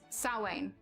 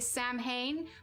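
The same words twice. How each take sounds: First: The word is pronounced differently from its spelling. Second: The word is pronounced just as it is spelled. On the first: The speaker calls it right. "it's actually pronounced like Samhain" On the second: The speaker calls it wrong. "if you'd look at it and you'd think it would be Samhain"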